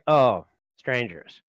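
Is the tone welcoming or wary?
wary. It sounds wary and suspicious.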